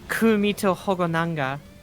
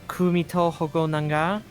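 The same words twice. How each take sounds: First: The stress is not on the last syllable. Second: The stress is on the last syllable. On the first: The speaker calls it wrong. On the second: The speaker calls it right.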